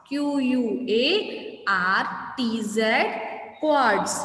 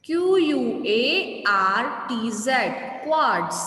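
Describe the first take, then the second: No difference in how they are said.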